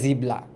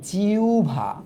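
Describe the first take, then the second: First: The middle is a b followed by l. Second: The middle is a w glide then bh. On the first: The speaker calls it wrong. "অনেকে আবার extreme পর্যায়ে যায়" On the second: The speaker calls it right. "এটার উচ্চারণ হচ্ছে জিউভা"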